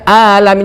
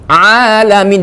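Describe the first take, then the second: First: The a starts with a plain glottal catch. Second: The a starts with a tight mid-throat sound. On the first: The speaker calls it wrong. "Kedua alamin dibaca a" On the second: The speaker calls it right. "tengah kerongkongan"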